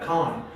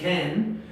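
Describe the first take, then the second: First: It has a dark, back vowel. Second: It has a bright, spread front vowel. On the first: "British people tend to make it more uh, like a darker vowel" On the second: "in American English, you pronounce it uh, with a smiling A"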